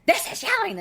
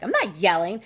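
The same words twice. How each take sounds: First: High, loud mock-argument yell; demonstrative yell. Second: Loud, insistent mock protest; retold loud denial. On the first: Wife showing husband real yelling, retold high shout. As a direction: show him what real yelling is. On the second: Wife retelling her denial to husband, loud mock protest. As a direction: deny it loudly, acting out an argument. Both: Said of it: "And then I would yell".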